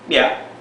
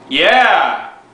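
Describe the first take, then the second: First: It is said at normal, quiet volume. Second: It is said noticeably louder.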